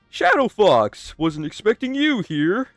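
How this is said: It is said in a manic, enthusiastic voice.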